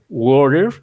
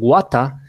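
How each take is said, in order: First: It is said in an American accent. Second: It is said in an Australian accent. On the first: "is an American English" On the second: "is an Australian"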